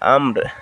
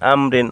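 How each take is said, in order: First: The word ends on a bare consonant. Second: The word ends with an -in vowel ending. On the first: The reader stops at this word. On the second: The reading continues without stopping.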